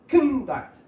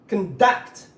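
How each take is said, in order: First: The stress is on the first syllable. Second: The stress is on the second syllable. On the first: It is used as a noun. "But this one is conduct" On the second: It is used as a verb. "When it is a verb, the stress is in the second syllable"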